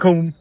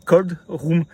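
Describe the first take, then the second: First: The first word sounds like 'call', without a D. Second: The first word is 'cold', with the final D. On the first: This is how the locals say it. "parce que c'est call room" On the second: This is what the words actually are. "alors que c'est cold room"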